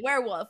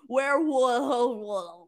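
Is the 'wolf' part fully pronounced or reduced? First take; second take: reduced; fully pronounced. First: The 'wolf' part is barely pronounced. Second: The 'wolf' part is fully, effortfully pronounced. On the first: "I just don't pronounce the wolf" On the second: "Too much mouth movement. I got to be like"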